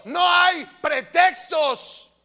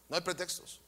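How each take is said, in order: First: Slow, loud shout on "No hay pretextos" with a strong fall. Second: "No hay pretextos" dropped low and very soft; almost breathe "No hay pretextos"; hushed. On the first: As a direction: bellow "No hay pretextos" at the congregation. Shouted, later repeated hushed. (el pastor grita a la congregación "No hay pretextos") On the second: Repeated hushed after shouting. (el pastor repite en voz baja y grave "No hay pretextos") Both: Real, not acted.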